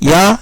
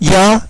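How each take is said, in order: No difference in how they are said.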